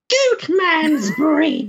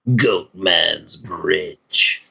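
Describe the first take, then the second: First: It is said in a higher voice. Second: It is said in a lower voice.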